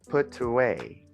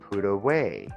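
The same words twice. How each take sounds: First: The t is pronounced as a clear t. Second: The t is a quick flap like r. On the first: The speaker calls it wrong. "and not put away" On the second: The speaker calls it right. "we have to pronounce the T between two vowels like an R"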